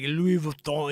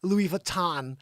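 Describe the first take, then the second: First: "Louis Vuitton" with a nasal French last vowel; French pronunciation. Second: "Louis Vuitton" ending in a hard American "tahn"; Americanized pronunciation. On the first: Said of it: "you're gonna say, like". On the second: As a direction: say "Louis Vuitton" with a sounded final n. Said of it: "you're gonna be like". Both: Shown as a demonstration.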